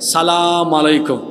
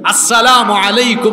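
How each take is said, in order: First: The greeting is clipped, dropping its opening sound. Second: The greeting is said in full, every syllable. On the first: The speaker calls it wrong. "অনেকে আছে সালাম দিতে পারে না সুন্দর করে" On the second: The speaker calls it right. "শুদ্ধ করে সালাম দিতে হবে"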